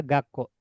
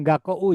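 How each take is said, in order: First: "Gakko" with a long o and no u; "Gakko" with the o held twice as long; right long o. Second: "Gakko U" with a separate u sounded at the end; spelled-out ending "Gakko U"; wrong long vowel. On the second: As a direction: say "Gakko U" as gak-ko, then an extra u. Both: Shown as a demonstration. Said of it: "Jadi bukan Gakko U ya".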